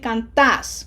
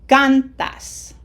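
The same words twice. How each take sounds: First: The stress is on the last syllable. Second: The stress is on the first syllable. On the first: The speaker calls it wrong. "We don't want to say cantas" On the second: The speaker calls it right. "emphasis is in syllable number two"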